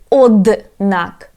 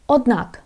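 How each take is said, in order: First: The d sound is clearly pronounced. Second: The d sound is almost silent. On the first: The speaker calls it wrong. "I don't say однак. I don't pronounce like this" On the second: The speaker calls it right. "it sounds like silent"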